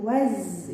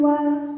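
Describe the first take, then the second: First: The l is dropped and z is doubled. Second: The l sound is pronounced after wa. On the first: The speaker calls it right. "tapi waz ya" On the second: The speaker calls it wrong. "bukan wal"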